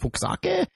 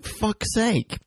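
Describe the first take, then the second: First: It does not sound like 'fuck's sake'. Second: It sounds exactly like 'fuck's sake'. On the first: The speaker calls it wrong. "We were going like" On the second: The speaker calls it right. "it turns out you pronounce it fuck's sake"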